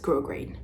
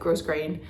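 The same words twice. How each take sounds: First: The first syllable sounds like French 'gros'. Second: The first syllable sounds like English 'gross'. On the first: The speaker calls it right. "gros like in French, grain like not in French" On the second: The speaker calls it wrong. "So sorry I said grosgrain. That's what I had heard"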